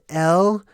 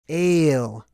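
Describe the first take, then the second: First: The vowel sounds like the letter L. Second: The vowel sounds like the word ale. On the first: "Some people pronounce it L" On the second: "That's that's literally how it's supposed to be pronounced"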